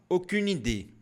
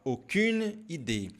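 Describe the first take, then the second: First: It is said quickly, words linked together. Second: It is said slowly, words kept apart.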